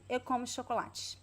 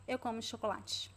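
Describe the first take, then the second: First: The unstressed vowels are very weak, barely heard. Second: The unstressed vowels are very weak, barely heard.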